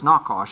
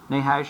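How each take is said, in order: First: The middle sound is a harsh throaty 'kh'. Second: The middle sound is a soft English 'h'. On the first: This is the original Hebrew form of the name. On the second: This is the usual English form of the name.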